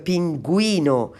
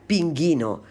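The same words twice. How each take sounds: First: The u is sounded after the g. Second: The u is silent after the g. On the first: The speaker calls it right. "Pero la palabra se pronuncia" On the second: The speaker calls it wrong. "si no los pongo yo aquí esta palabra, la tendría que pronunciar"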